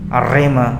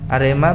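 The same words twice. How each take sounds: First: The r is said with a strong, long trill. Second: The r is said with a light, plain trill. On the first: It sounds firm and convincing. "Bergetar dengan kuat" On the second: It sounds weak and unconvincing. "biar biasa gitu kurang mantap"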